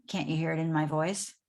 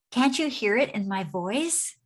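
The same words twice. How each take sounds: First: Said in the usual way. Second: Bright smiling tone on the phone. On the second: Shown as a demonstration. Coach demoing a smiling phone greeting, smiling. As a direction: say it with a smile you can hear. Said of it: "I can hear it in your voice".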